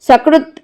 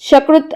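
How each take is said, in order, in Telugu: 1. ఇది బుసకొట్టే 's' శబ్దంతో మొదలవుతుంది. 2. ఇది గుసగుసలాడే 'sh' శబ్దంతో మొదలవుతుంది. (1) "దంతముల సకారముతో ఉచ్చరించవలసిన స కారమును" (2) "దవడల సహకారముతో ఉచ్చరించు ష కారముగా"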